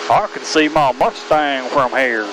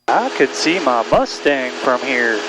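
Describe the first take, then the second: First: It is said with a stronger country twang. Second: It is said with little twang.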